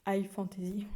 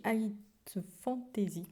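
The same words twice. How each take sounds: First: Whispered retry. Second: Said in the usual way. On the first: Shown as a demonstration. Booktuber redoing her bad English accent, whispered. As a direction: whisper the English term again to yourself. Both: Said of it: "Mon accent anglais est vraiment catastrophique".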